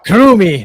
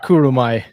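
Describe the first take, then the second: First: The name ends with an 'ee' sound. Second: The name ends with an 'eye' sound. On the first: The speaker calls it right. "it's Kurumi" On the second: The speaker calls it wrong. "not Kurumai"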